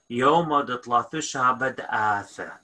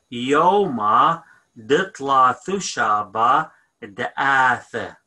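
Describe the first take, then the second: First: Said in the usual way. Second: "Yoma ditla thushaba da'ath" said slowly, every syllable spelled out; slow, careful teacher model of "Yoma ditla thushaba da'ath"; syllable by syllable so students can copy; slow model phrase. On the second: Shown as a demonstration. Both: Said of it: "So we're gonna say".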